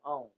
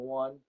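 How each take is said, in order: First: The name is said rhyming with 'own'. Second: The name is said rhyming with 'one'. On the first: The speaker calls it right. "It's own" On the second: The speaker calls it wrong. "Everybody pronounces that wrong. They call it a one"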